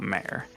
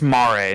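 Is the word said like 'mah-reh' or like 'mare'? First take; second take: mare; mah-reh. First: It is said in one syllable, like 'mare'. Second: It is said in two syllables, 'mah-reh'. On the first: It means a female horse. The speaker calls it wrong. "not Mare" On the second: It means ocean. The speaker calls it right. "M A H R E H is how you pronounce it, as in Italian or Latin for ocean"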